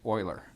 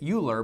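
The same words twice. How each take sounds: First: The name begins with an 'oy' sound. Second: The name begins with a 'you' sound. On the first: The speaker calls it right. "it is pronounced" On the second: The speaker calls it wrong. "like you would want to pronounce it"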